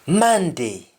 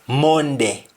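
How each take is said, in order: First: The o is said like an a sound. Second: The o is said like an o sound.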